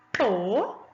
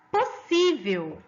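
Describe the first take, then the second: First: "Possível" split into three syllables with long pauses. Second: Said in the usual way. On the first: Shown as a demonstration. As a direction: dictate "Possível" as pos, sí, vel, each apart. ("Possível" pausadamente, sílaba por sílaba) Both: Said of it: "Separa as sílabas primeiro".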